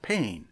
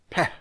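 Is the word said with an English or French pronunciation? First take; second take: English; French. First: The word is read with an English pronunciation. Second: The word is said with a French pronunciation. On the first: "We would pronounce that pain" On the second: "the French pronounce it peh"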